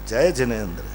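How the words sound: The greeting sounds humble and respectful. The speaker shows respect to the listener. The speaker calls it right. "जिस विनय से बोला जाता है"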